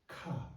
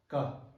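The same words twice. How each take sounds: First: The consonant is said with a puff of air. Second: The consonant is said without a puff of air. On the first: "The difference between the first one and the second one" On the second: "You shouldn't aspirate too much"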